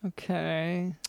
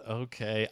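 First: A doubtful, quiet okay; unconvinced, wary okay; skeptical. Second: A quiet, doubtful okay echoed back; mock-skeptical okay; mimicking skepticism. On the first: Real, not acted. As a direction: say it like you don't buy it. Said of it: "Doctor London still seems skeptical". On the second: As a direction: imitate his unconvinced okay. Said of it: "the way he said".

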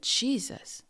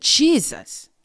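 First: Fearful call. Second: Name shouted high and loud, with full force; loud cry of the name. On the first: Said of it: "I had so much fear". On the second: Recalling the demon attack, shouting the name for protection, loud. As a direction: cry out Jesus as loud as you can against the attacker. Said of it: "as I got loud and I said". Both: Retold or imitated.

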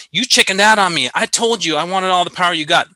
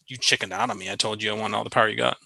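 First: Higher, louder mock-gruff scolding; a hammed-up harsh retort. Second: Softer, quicker throwaway of the harsh line; hushed, hurried quote of the rude line; muted mock quote. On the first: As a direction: toss it off like a blunt mechanic chewing out the pilot. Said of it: "Now, that was a little harsh". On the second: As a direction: mumble it past as the way not to talk. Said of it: "you don't say".

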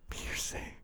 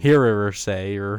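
First: Hearsay whispered with no voice; soft aside whisper of Hearsay. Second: Hearer say, drawn out with an extra R; slow teasing Hearer say with an added R sound; mock mispronunciation. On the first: Real, not acted. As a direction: whisper hearsay under breath. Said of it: "I'm surprised you didn't throw another R". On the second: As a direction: mimic the partner saying Hearer say. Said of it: "throw another R in there somewhere".

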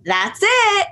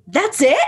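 First: High-pitched nurse imitation; mock nurse reassurance. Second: Higher, questioning celebrity imitation; mock celebrity surprise. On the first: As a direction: sing out a forced confirmation. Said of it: "force the nurse to have to go". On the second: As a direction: act underwhelmed, asking the nurse. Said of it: "turn to the nurse and they go".

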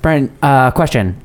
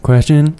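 First: Said in the usual way. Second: Rising confused echo; puzzled question. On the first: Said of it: "they're like". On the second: Retold or imitated. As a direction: repeat it as a baffled question. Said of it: "I'm like".

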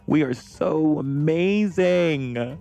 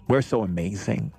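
First: High and slow on amazing; swooning sing-song; drawn-out gush. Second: Said in the usual way. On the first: Real, not acted. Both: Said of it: "repeated takes".

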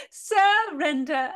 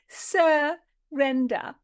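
First: Slow, wailing, theatrical word; mock wail. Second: Very slow, drawn-out sneer; mocking. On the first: Repeated with cry. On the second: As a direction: stretch the word out in scorn. Repeated mocking word.

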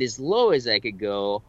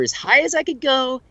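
First: AS LOW AS I COULD GO dropped down; as low as possible. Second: AS HIGH AS I COULD GO lifted up high; as high as possible. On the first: Voice actor describing extreme lines, pitched low. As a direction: let LOW sink in pitch. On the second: Voice actor describing extreme lines, pitched high. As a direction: push HIGH up in pitch and louder. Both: Shown as a demonstration.

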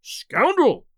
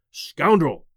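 First: High, loud furious cry; enraged outburst, pitched high; mounting fury. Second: Tense, forceful burst of rage; husky with rage. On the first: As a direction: let the rage flare up into a louder accusation. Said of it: "new fuel to my fury". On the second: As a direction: spit it out as a husky, enraged accusation. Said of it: "in a voice husky with rage". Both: A narrator's reading.

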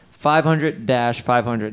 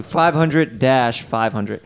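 First: Deliberate slow number read; slow, clear number, steady. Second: Slow, clear number. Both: Shown as a demonstration. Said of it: "repeats number slowly".

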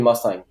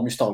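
First: Mustang said the English way; English pronunciation. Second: Mustang said the French way; French pronunciation. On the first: Car expert showing what everyone says, English pronunciation. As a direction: say Mustang as English "Muss-tang". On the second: Car expert showing what nobody says, French pronunciation. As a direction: say Mustang with French u, "mus-tangue". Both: Shown as a demonstration. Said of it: "l'accent anglais ou l'accent français".

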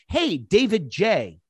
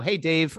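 First: Slow, overly formal greeting, a bit higher; stiff formal greeting. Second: Said in the usual way. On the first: Retold or imitated. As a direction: greet him stiffly by full name like a cold pitch. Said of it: "the worst thing that they do is say". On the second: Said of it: "As opposed to".

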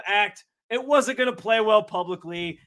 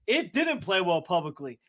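First: Said in the usual way. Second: Didn't leaned on, falling and a bit lower; stress on didn't. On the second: Real, not acted. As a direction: land the word didn't with a told-you-so fall. Confirming own prediction, victory lap.

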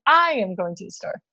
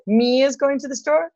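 First: "I" stressed, then settling into a plain statement; matter-of-fact answer with weight on "I". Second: "me" set up high, sentence rising to a question; questioning lift, with weight on "me"; stress on me. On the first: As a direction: offer the right option, landing on "I". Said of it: "or is it". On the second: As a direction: offer the wrong option, high, testing "me". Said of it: "Is it". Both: Shown as a demonstration.

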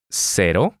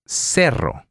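First: Cero with one quick tapped r; Cero, tap the r once; single flap r. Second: Cerro with a strong trilled double r; Cerro, roll the rr firmly. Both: Shown as a demonstration. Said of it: "let's contrast these two sounds".

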